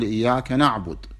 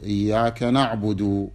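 First: The last word ends on a bare consonant. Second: The last word ends on a short vowel. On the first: "تقف على ساكن" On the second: "وقفت على حركة"

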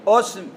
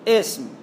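First: The word begins with a u vowel. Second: The word begins with an i vowel. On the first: "همزة عليها ضمة" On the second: "همزة عليها كسرة"

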